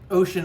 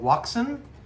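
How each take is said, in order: First: The name begins with an 'oh' sound. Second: The name begins with a 'wah' sound. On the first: The speaker calls it right. "is how you're supposed to pronounce it" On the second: The speaker calls it wrong. "Some people call it Waksun"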